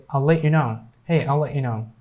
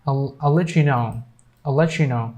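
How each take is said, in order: First: "let you" with the T unreleased, no ch; silent T. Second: "let you" joined as "letchu"; cha sound. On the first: Teacher showing what other people say for "let you", silent T. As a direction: cut off the T of "let" before "you". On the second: Teacher's first version of "let you know", cha sound. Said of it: "both of them are correct". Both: Shown as a demonstration.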